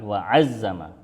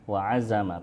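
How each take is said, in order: First: The z sound is held long and doubled. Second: The z sound is short and single. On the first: The speaker calls it wrong. "bukan wa azzama" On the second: The speaker calls it right. "Zainya nggak usah ditasjid ya"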